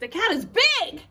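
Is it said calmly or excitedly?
excitedly. It is said as an excited exclamation.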